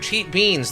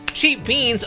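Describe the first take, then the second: First: It is said in a disappointed, negative tone. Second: It is said in a pleased, positive tone. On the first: The purchase was a bad deal. "you can shout it as a negative in context" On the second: The purchase was a great deal. "You could shout it as a positive"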